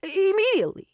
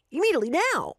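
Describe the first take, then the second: First: Hissed urgent demand; urgent whisper. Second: Louder voiced insistence; insistent demand. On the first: Acted. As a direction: press it through teeth, urgent. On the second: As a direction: push hard, no patience. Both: Impatient man demands now.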